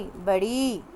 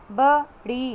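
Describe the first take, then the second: First: Said in the usual way. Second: बड़ी said louder, syllables clear; teacher modelling बड़ी; loud careful read. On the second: Shown as a demonstration. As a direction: read बड़ी loudly for the class. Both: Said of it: "ध्यान से पढ़िएगा".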